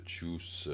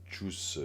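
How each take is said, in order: First: Juice with a soft Korean j, slow; slow, careful juice; correct 주스. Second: Juice with a hard t-like j; the learner's juice; imitating her juice. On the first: Shown as a demonstration. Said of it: "Voyez la différence?". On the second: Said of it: "elle fait un peu le juice".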